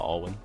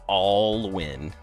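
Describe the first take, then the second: First: The stress is on the second part. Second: The stress is on the first part. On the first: The speaker calls it wrong. "Instead of" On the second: The speaker calls it right. "More heavy on like all"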